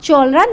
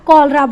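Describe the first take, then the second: First: The word begins with a 'ch' sound. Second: The word begins with a 'k' sound. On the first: The speaker calls it wrong. "इसे हम चोलरा नहीं बोलेंगे" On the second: The speaker calls it right. "इसे हम कॉलरा बोलेंगे"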